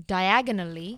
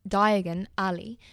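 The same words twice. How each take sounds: First: "diagonally" run together as one word, dye-AG-uh-nuh-lee; mistaken version. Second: "Diagon Alley" slowly as two words, DYE-uh-gon AL-ee; careful, slower "Diagon Alley", split in two; correct name. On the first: Retold or imitated. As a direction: say "diagonally" as the ordinary adverb. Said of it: "but he said diagonally". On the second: Shown as a demonstration. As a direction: separate "Diagon Alley" clearly into name and street. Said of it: "it is Diagon".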